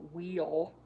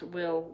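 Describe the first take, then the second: First: "wheel" said with a long ee vowel; mocking accent. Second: Said in the usual way. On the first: A narrator's reading. Lex mocks Will's accent, "wheel" with long ee. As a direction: stretch "wheel" like a mocked drawl. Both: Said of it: "He pronounced Will".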